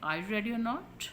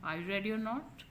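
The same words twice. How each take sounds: Both takes have the same delivery.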